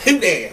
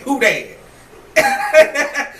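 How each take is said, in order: First: Said in the usual way. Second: Mock Southern accent. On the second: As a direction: mimic her Southern rap twang lightly. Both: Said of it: "They don't say that in Australia".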